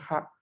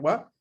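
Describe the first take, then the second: First: The syllable is pronounced ha. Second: The syllable is pronounced wa. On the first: The syllable is not a particle. "si no está en función partícula se va a leer ja" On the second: The syllable works as a particle. "si está en función partícula se va a leer wa"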